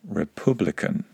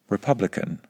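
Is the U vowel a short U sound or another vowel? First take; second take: another vowel; short U. First: The U vowel is not the short U sound. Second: The U vowel is a short U sound. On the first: This is a regional pronunciation. "not republican" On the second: This is the standard British pronunciation. "and republican"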